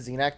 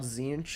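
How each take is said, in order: First: The name ends with an 'ack' sound. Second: The name ends with an 'inch' sound. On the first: "I used to pronounce it Xenac" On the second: "there was no z- act part that I just called Zinch"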